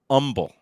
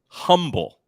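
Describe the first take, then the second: First: The word begins with no h sound. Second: The word begins with an audible h sound. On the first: "but it's pronounced umble" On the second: "It's spelled humble"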